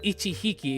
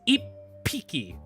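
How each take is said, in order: First: The word has a plain h sound inside. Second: The word has a doubled hard p sound inside. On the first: The speaker calls it wrong. "it's not ichihiki" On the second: The speaker calls it right. "with a with a p, a hard p"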